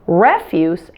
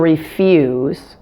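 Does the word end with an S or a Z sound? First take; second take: S; Z. First: The word ends with a hissing S sound. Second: The word ends with a buzzing Z sound. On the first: It is used as a noun. "the S E endings of nouns and adjectives will be pronounced with an S sound" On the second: It is used as a verb. "the S E endings on the verbs will be pronounced with a Z sound"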